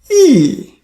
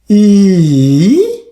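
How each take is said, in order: First: The pitch falls sharply from high to low. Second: The pitch dips low, then rises again. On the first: "Fourth tone, E, E. You see the tone from top to bottom" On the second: "Third tone"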